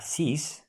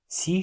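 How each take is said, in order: First: The final consonant is pronounced. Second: The final consonant is silent.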